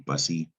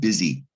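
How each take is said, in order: First: The first syllable sounds like 'bus'. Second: The first syllable sounds like 'biz'. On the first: The speaker calls it wrong. "It looks like it, it's pronounced bus, maybe bussy" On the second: The speaker calls it right. "but it's pronounced busy"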